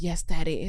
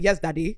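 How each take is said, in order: First: Lightly played American accent; put-on American accent. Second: Lightly put-on Nigerian accent. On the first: Showing how she tried it in bed, American accent. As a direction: slip into an American-accented character. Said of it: "where's the accent coming from". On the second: Showing the accent that won't work, Nigerian accent. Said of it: "in a Nigerian accent". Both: Shown as a demonstration.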